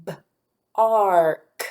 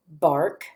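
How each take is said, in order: First: B-ark split into b, long ar, k; sounded out. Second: Said in the usual way. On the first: Shown as a demonstration. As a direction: break B-ark into slow separate sounds with gaps. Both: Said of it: "tap out those sounds".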